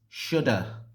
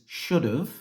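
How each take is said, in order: First: It ends in a weak 'uh' vowel. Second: It ends with a short 'v' sound. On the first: "the reduced form is" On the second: "the contracted form of this is"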